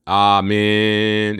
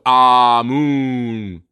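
First: "Amen" as ah-MEN, second syllable held; drawn-out "Amen", weight at the end; stress on second syllable. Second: "Amun" as ah-MOON, very drawn out; long, sustained "Amun" with an oo; original pronunciation. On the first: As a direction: lean long on the MEN of "Amen". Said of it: "they put the emphasis on". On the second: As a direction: stretch both syllables of "Amun" slowly. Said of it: "Instead of". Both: Shown as a demonstration.

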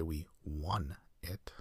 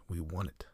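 First: Won drawn out slowly with a clear W; tinge of W. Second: Won said quickly, identical to the number one. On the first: Shown as a demonstration. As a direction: stretch the W at the start of won. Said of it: "tinge of W at the beginning to distinguish". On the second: Retold or imitated. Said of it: "Completely indistinguishable".

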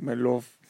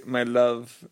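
First: Put-on "My loaf." in a light Hispanic accent, love sounding like loaf; playful Hispanic accent on "My loaf.". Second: Said in the usual way. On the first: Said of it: "Hispanic accent". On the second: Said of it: "then we'd say it in, like, a Hispanic accent".

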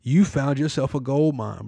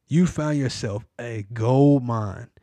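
First: Said in the usual way. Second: Slower, every word weighed; slow emphatic repeat. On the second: Shown as a demonstration. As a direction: lean on gold mine slowly.

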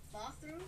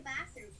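First: "Bathroom" with a long British "ah", questioning; attempted British accent. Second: Said in the usual way. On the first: Shown as a demonstration. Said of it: "I can do a British accent". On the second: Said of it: "How do you say bathroom?".

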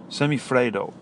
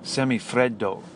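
First: Said in the usual way. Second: Slow, hammed-up Italian accent on Semifreddo, open e as in "fredo"; mock Italian accent. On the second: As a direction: say Semifreddo like a proud Italian chef, in a light Italian accent. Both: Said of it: "I'll give you my best Italian accent".

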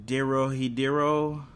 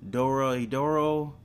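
First: Dorohedoro with DEH-ro in both halves, "DEH-ro-hee-DEH-ro"; unsure pronunciation. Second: Dorohedoro with DOR-o in both halves, "DOR-o-hee-DOR-o"; alternative pronunciation. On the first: Vlogger guessing an anime title, Dorohedoro said "DEH-ro-hee-DEH-ro". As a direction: say Dorohedoro slowly, with an "eh" in first and fourth syllables. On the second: Vlogger offering another guess at the title, Dorohedoro said "DOR-o-hee-DOR-o". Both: Shown as a demonstration. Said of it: "don't know how to pronounce this".

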